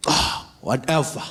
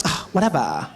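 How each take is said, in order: First: Slow, hammed-up whatever; dad trying too hard to sound casual; clumsy exaggerated brush-off; overdone whatever. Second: Light dismissive whatever; breezy brush-off; casual whatever. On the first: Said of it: "you don't have it". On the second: Shown as a demonstration. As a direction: shrug it off easily. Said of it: "just be like".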